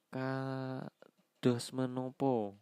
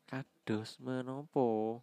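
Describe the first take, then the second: First: Kados menopo drawn out slowly; slow kromo word. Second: Kados menopo said slowly again; slow repeat. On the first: (ucapkan pelan-pelan) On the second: (diulang pelan) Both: Shown as a demonstration.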